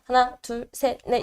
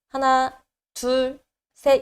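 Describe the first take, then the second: First: The counting is fast. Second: The counting is slow.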